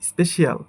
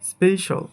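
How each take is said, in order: First: The ending is said as two syllables, shee-al. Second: The ending is said as one syllable, shal. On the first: The speaker calls it wrong. "এটাকে বলি আমরা" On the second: The speaker calls it right. "But এটা সঠিক উচ্চারণ হবে"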